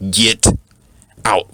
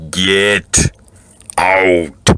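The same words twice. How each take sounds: First: Said in the usual way. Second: Get, a long pause, then out; slow, pause-split Get ... out. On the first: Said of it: "that is the time for me to say". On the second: Shown as a demonstration. Showing the audience the way to say Get out. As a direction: hit Get, hold, then out. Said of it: "let me say it so y'all can understand".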